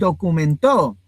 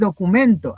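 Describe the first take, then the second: First: The stress is on the final syllable to. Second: The stress is on the syllable men. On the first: Someone recorded or registered something. "ahora va a estar en to" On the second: A sheet of paper with information. "ya no va a estar en men"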